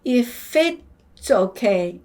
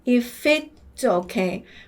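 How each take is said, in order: The two takes are said the same way.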